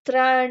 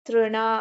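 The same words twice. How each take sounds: First: The first syllable is said as 'tra'. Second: The first syllable is said as 'tru'. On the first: The speaker calls it wrong. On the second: The speaker calls it right.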